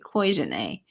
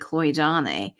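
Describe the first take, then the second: First: It is said the American way. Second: It is said the New Zealand way. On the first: "in the States we say cloisonne" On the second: "you taught me that it's really cloisonne"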